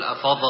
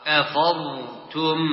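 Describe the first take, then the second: First: Short echoed dad ending أفض; wrongly bounced dad. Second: Stretched, still dad before "tum" in أفضتم; no qalqalah. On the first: (أفض بقلقلة الضاد) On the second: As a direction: hold the dad in أفضتم without a bounce. (أفضتم بضاد ساكنة دون قلقلة) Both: Shown as a demonstration. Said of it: "ولا تقلقل".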